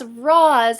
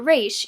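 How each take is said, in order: First: The name ends with an s sound. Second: The name ends with an sh sound. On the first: The speaker calls it wrong. "he's still pronouncing it as Roz" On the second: The speaker calls it right. "and not Raish"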